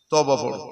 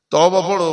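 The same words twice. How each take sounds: First: Said in the usual way. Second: তওবা said louder the second time; firmer repeat. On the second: Retold or imitated. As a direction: press তওবা harder on the repeat.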